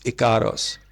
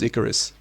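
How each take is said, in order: First: The name ends with an 'os' sound. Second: The name ends with an 'us' sound. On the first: The speaker calls it right. "but it's Icaros" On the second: The speaker calls it wrong. "I always mispronounce it as Icarus"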